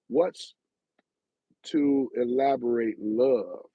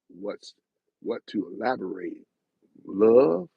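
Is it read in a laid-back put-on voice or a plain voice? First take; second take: plain; laid-back. First: It is read in his plain normal voice. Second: It is read in a laid-back put-on voice. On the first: The speaker calls it wrong. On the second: The speaker calls it right.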